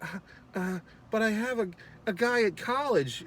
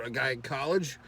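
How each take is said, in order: First: High, hesitant imitation of a young woman; flustered girl. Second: Said in the usual way. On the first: Girl dodging his kiss, high flustered voice. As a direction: stammer the excuse in a high girlish voice. Retold girl fending off a guy.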